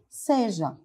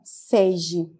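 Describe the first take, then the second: First: The word ends in an a sound. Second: The word ends in an e sound. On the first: The speaker calls it right. "a forma adequada é seja" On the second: The speaker calls it wrong. "são exemplos aí de cacografia"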